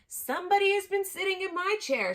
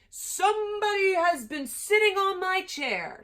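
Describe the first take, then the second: First: It is said in a middle-sized voice. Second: It is said in a great big voice.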